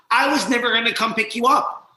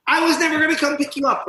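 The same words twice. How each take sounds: First: Higher, louder taunt; mocking taunt. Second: Much higher, louder, faster taunt; harsher mocking taunt. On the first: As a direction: sneer it at him. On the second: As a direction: rub it in harder. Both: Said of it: "all of a sudden I heard".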